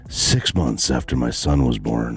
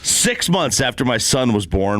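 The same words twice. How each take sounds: First: It is read in a put-on pirate character voice. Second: It is read in an ordinary speaking voice.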